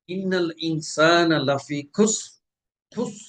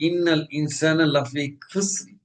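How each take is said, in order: First: Slow ইন্নাল ইনসানা লাফি খুস with a heavy rounded sad; correct sad, rounded lips. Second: ইন্নাল ইনসানা লাফি খুসরি with a thin sin, spread lips; wrong sad as sin. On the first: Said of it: "ঠোঁট গোল করে উচ্চারণ". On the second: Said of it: "ঠোঁট লম্বা করে পড়ি". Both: Shown as a demonstration.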